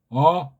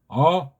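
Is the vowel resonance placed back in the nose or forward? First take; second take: back; back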